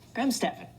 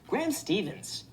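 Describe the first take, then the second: First: The surname ends without an s sound. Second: The surname ends with an s sound. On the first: The speaker calls it right. "there's no S at the end of that" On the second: The speaker calls it wrong. "Why do you mispronounce my last name wrong?"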